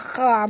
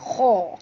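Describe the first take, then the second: First: The kh sound is thin and light. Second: The kh sound is thick and heavy. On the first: The speaker calls it wrong. "jangan baca ha kha pula ya" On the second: The speaker calls it right. "kha ni tebal"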